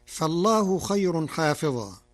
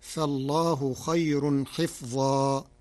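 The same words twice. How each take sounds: First: حافظا with long aa after the ha; open, lengthened first syllable in حافظا; cited reading. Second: حفظا with kasra on ha, silent fa; short i and closed first syllable in حفظا; Warsh reading. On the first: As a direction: recite حافظا as haa-fi-zaa. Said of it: "بكسر الحاء وسكون الفاء". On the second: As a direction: recite حفظا slowly as hif-zaa. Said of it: "بكسر الحاء وسكون الفاء، فتصير". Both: Shown as a demonstration.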